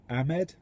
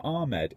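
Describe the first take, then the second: First: Ahmed with short "a" as in cat; tentative "AM-ed" for Ahmed, rising; trying a pronunciation. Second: Ahmed said as AR-med; long open "ah" opening Ahmed; pronouncing a name. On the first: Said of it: "it's not Ahmed". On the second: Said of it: "it's not Ahmed. It's, A-, Ahmed". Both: Shown as a demonstration.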